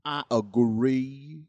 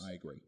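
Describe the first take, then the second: First: Slow, louder, rising agree; drawn-out agree. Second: Soft, dropped I agree; murmured, falling off; quiet agree. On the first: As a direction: stretch agree out with a rise. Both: Shown as a demonstration.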